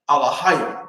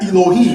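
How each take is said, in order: First: The name begins with 'a' and has 'a' vowels. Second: The name begins with 'e' and has 'o'. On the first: The speaker calls it right. "But that's Alahayim" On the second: The speaker calls it wrong. "right there they got Elohim"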